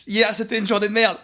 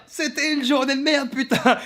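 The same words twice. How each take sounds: First: Said in the usual way. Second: Higher, slow, dragged-out complaint; fed-up drawl. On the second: Real, not acted. To his viewers about a rotten day, dragged-out fed-up groan. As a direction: stretch out merde, fed up.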